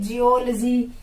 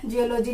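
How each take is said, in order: First: जियोलॉजी as ji-OL-jee; corrected pronunciation. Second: जियोलॉजी as jiyo-LOH-jee; mispronounced जियोलॉजी. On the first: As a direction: join the L to जियो in जियोलॉजी, then jee. (जियोलॉजी को जियोल-जी बोलकर) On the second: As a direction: keep लॉजी a separate unit in जियोलॉजी. (जियोलॉजी को जियो-लोजी तोड़कर) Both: Shown as a demonstration. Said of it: "जियोलॉजी नहीं".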